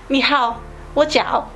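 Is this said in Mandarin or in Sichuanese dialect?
Sichuanese. It is said in Sichuan dialect. "in the my dialogue have a different mm, feeling. It's like"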